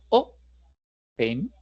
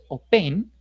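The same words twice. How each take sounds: First: The stress is on the first syllable. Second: The stress is on the second syllable. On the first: The speaker calls it right. "sino open" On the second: The speaker calls it wrong. "No es open"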